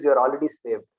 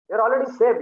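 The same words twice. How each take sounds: First: Said in the usual way. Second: "saved" landed higher and louder with a firm fall; a teacher insisting to his students, with a higher, louder "saved"; emphatic repeat. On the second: Retold or imitated. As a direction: drive home "saved" with a falling punch.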